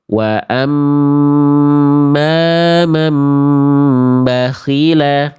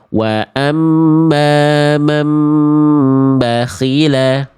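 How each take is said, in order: First: The doubled m is held for a longer count. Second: The doubled m is clipped short and rushed. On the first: The speaker calls it right. "harusnya tahan dulu ya" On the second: The speaker calls it wrong. "Cuma dibaca satu harokat doang ya"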